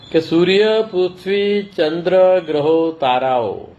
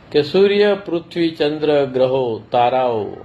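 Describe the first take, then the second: The two takes are said the same way.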